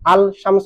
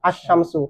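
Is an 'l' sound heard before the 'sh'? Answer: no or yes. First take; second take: yes; no. First: The 'l' sound is heard before 'sh'. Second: The 'l' is absorbed into a doubled 'sh'. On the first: "আল শামসু থেকে" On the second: "লাম তো উচ্চারণ হবে না"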